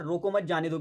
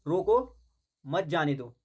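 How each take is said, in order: First: "रोको मत" run together as one phrase, then "जाने दो"; no pause after "रोको", slight break after "मत"; group "रोको मत" before "जाने दो". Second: "रोको" set apart, then a clear pause before "मत जाने दो"; pause after रोको. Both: Shown as a demonstration. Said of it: "पे विराम चिन्ह अलग लगेगा".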